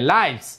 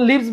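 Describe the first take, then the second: First: The vowel is an eye sound. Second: The vowel is a short i sound. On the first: It is the plural of life. The speaker calls it right. "এখানে লাইভস হবে" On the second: It is the verb meaning to live. The speaker calls it wrong. "উচ্চারণটা আমি লিভস বলবো কি বাস করা বুঝাতে"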